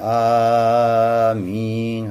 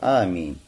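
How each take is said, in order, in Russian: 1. Первый гласный тянут очень долго. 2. Первый гласный держат всего две доли. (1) "долго-долго говорят, вот а вначале тянут" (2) "два хараката. ... Это самая лучшая форма"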